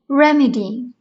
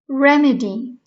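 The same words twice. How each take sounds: The two takes are said the same way.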